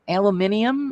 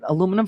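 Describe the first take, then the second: First: The word is said the British way. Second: The word is said the American way. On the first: This is how people in another country say it. "how do they say it? Aluminium is it?" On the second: This is how the speaker's own country says it. "We call it aluminum foil"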